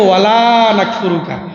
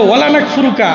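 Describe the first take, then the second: First: The vowel of 'la' is drawn out long. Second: The vowel of 'la' is cut short. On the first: It negates the verb as intended. The speaker calls it right. "টান আছে" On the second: The meaning is turned into its opposite. The speaker calls it wrong. "আগেরটার অর্থ করি"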